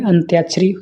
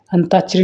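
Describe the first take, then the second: First: Said in the usual way. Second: अंताक्षरी as "antaakshari", no y; mispronunciation. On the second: Shown as a demonstration. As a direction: drop the y from अंताक्षरी. (अंताक्षरी बिना 'य' के) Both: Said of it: "अंताक्षरी नहीं".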